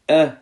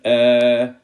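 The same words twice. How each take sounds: First: The vowel is short and clipped. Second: The vowel is drawn out long. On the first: The speaker calls it right. "without stretching, no stretching" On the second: The speaker calls it wrong. "not a, I, U, that will be wrong"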